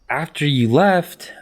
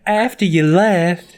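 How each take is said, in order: First: It is said in a plain everyday accent. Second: It is said in a Southern Belle accent. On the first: The speaker calls it wrong. "That's not what Kelly sounds like" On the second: The speaker calls it right. "No, she's a Southern Belle"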